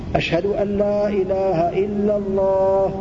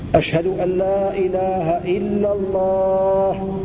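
Both takes have the same delivery.

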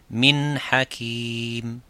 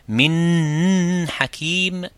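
First: The n is short and clear without nasal hold. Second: The n is lengthened as a doubled consonant. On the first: The speaker calls it right. "comment on fait l'izhar ici, c'est min hakim" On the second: The speaker calls it wrong. "ou faire tashdid"

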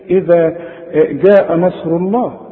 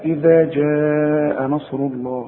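First: The jim is said as a hard g. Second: The jim is said as a soft j. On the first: The speaker calls it wrong. "مش هنقول بقى ايه" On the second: The speaker calls it right. "عطش الجيم دائما"

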